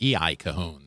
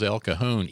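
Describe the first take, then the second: First: The first part is spelled out as letters. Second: The first part is said as one word. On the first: The speaker calls it wrong. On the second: The speaker calls it right.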